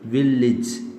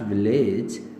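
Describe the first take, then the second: First: The final syllable has a short 'ij' vowel. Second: The final syllable has a long 'ej' vowel. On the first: The speaker calls it right. "इसे सिज कहें" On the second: The speaker calls it wrong. "Not विलेज"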